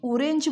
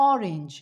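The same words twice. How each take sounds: First: অরেঞ্জ said with a rounded "ও" first, the wrong way; wrong "o" sound. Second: অরেঞ্জ with an open "অ" first vowel; correct short "o" sound. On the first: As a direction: say অরেঞ্জ starting with "ও". (ভুল উচ্চারণ, শুরুতে "ও") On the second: (সঠিক উচ্চারণ, শুরুতে "অ") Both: Shown as a demonstration. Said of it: "না".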